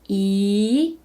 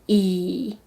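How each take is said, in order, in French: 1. La hauteur monte du milieu vers le haut. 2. La hauteur descend bas, puis remonte.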